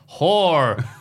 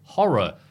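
First: It is said with an American accent. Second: It is said with a British accent. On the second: "Brits be like horror"

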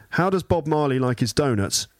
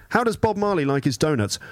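Both takes have the same delivery.

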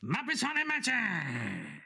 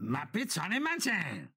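First: It is said with more energy. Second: It is said with little energy.

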